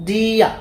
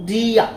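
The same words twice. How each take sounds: Both takes have the same delivery.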